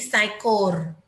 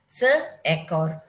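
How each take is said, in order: First: The vowels blend into ai, saikor. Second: The vowels stay separate as se-ekor. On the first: The speaker calls it wrong. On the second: The speaker calls it right.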